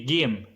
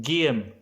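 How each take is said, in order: First: The word starts with a hard g sound. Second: The same.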